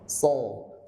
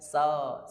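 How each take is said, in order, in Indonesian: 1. Bunyinya penuh, dalam, dan bulat. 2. Bunyinya lebih datar dan kurang bulat. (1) "Itu kan bulat" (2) "so itu baru istilah, belum itbaq"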